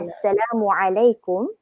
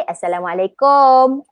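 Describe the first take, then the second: First: Assalamualaikum careful and softer, short U in "kum"; correct Arabic form. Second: Assalamualaikum ending in a long O, "kooom"; wrong long "kom". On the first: Teacher giving the right greeting, Assalamualaikum softly and carefully. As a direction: sound the ain in Assalamualaikum and end on "kum". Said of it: "kalau kita nak Arabkan kita punya". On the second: Teacher showing what is forbidden, Assalamualaikum with long O ending. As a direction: drag the end of Assalamualaikum as "kom". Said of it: "Satu O salah". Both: Shown as a demonstration.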